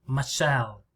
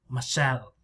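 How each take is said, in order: The two takes are said the same way.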